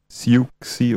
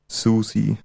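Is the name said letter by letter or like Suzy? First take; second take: letter by letter; like Suzy. First: The name is sounded out letter by letter. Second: The name sounds like the name Suzy. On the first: The speaker calls it wrong. "Falsch ausgesprochen. Und zwar Siuxi" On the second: The speaker calls it right. "wird ausgesprochen richtig [name]"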